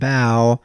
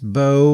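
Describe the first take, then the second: First: The name's vowel rhymes with cow. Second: The name's vowel rhymes with go. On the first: The speaker calls it wrong. "We kept calling him Bow" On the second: The speaker calls it right. "it's Bo, like the weapon"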